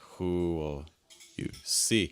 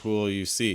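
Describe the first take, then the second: First: The pitch drops just before a stressed see. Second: The pitch stays flat across every word. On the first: The speaker calls it right. "It's going to add a lot more contrast" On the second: The speaker calls it wrong. "Because that's very flat"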